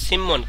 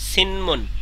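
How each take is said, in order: First: The n is assimilated, giving a double m. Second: The n is kept before the m sound. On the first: The speaker calls it right. "এই যে এটা হচ্ছে সিম্মন" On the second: The speaker calls it wrong. "কিন্তু তারা পড়ছে কি?"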